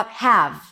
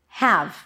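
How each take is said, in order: The two takes are said the same way.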